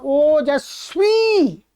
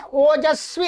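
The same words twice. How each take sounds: First: ओजस्वी very slow, final ee held long. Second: ओजस्वी with a short, quick final i. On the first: Teacher shows students the masculine form, long drawn-out ee ending ओजस्वी. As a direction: stretch the last vowel of ओजस्वी right out. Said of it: "यदि यहाँ पर कोई पुल्लिंग शब्द होता". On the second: Teacher shows students the neuter form, short final i in ओजस्वी. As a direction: keep the last vowel of ओजस्वी short. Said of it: "ऐसा ह्रस्व इकारांत बनता". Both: Shown as a demonstration.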